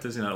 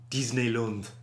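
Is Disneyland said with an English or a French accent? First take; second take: English; French. First: It is said with an English accent. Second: It is said with a French accent.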